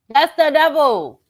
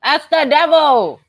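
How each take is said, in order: First: "That's the devil" again slow and high; slow dramatic repeat. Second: "That's the devil" drawn out high and slow; slow dramatic emphasis. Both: Shown as a demonstration.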